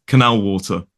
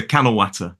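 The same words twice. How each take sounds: First: Said in the usual way. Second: Nottinghamshire "canal water", like "cannel watter"; father's Midlands accent. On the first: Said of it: "which is sort of canal water". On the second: Retold or imitated. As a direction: imitate a Midlander's short a in "water". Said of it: "so he calls beer canal water".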